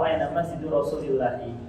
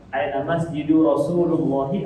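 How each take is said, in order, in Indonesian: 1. Vokal setelah 'Rasul' adalah 'i'. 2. Vokal setelah 'Rasul' adalah 'u'.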